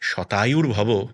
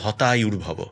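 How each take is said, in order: First: The first word begins with an s sound. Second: The first word begins with an h sound. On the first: "তাকে যদি আশীর্বাদ দেওয়া হয় যে শতায়ুর ভব" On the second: "আসলে সে তো স উচ্চারণ করতে পারবে না, সে বলবে হতায়ুর ভব"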